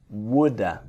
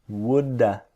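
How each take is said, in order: No difference in how they are said.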